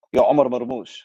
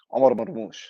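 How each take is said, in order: First: Said in the usual way. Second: Excited hype call. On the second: Real, not acted. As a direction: hype him up like a fan in the stands. Hyping up his player.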